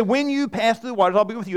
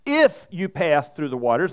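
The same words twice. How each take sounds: First: WHEN leaned on, said firmly; "When" given the weight of the line; stress on WHEN. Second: IF lifted as a doubtful maybe; a lower, questioning "If you pass" set against "When"; stress on IF. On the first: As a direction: hit the word "When" clearly, not "If". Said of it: "what it says". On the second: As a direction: say "If" as the wrong, hopeful reading. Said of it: "It doesn't say". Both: Shown as a demonstration.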